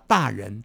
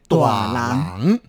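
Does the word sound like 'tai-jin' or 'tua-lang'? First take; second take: tai-jin; tua-lang. First: The word is read as tai-jin. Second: The word is read as tua-lang. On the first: It refers to the police. "在台语里面的讲的大人呢，所指的就是警察啊" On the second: It refers to a grown-up. "这个人呢已经是成年人了"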